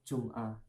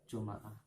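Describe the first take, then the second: First: No vowel follows the m. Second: An a vowel follows the m. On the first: "bawahnya itu adalah sukun" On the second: "Bawahnya itu baru fathah"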